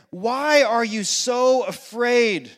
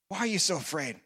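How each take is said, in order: First: Slow, drawn-out, leaning on why; slow searching question. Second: Much softer, lower, gentle echo of the question; soft repeat. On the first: Jesus questioning frightened disciples, slow and drawn out. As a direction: ask it slowly and deliberately. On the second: Jesus repeating his question to disciples, soft and low. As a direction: ask it again quietly and tenderly. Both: Acted.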